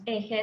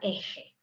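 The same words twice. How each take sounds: First: The j is a soft, light sound. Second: The j is a harsh, strongly fricative sound.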